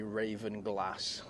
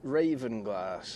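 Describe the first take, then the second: First: It is said in a northern way. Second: It is said in a non-northern way.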